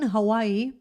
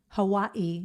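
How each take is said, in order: First: It is said the everyday English way. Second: It is said the local Hawaiian way.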